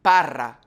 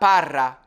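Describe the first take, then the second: Both takes have the same delivery.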